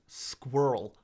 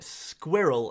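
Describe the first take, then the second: First: It is said in an American accent, with fewer syllables. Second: It is said in the speaker's usual accent.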